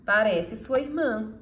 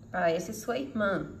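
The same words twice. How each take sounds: First: "Parece sua irmã" slow and amazed; surprised exclamation. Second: Said in the usual way. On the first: Shown as a demonstration. Teacher showing surprise with the exclamation mark, slow and amazed. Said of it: "se a intenção é destacar a surpresa". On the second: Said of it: "mas também expressa sua surpresa".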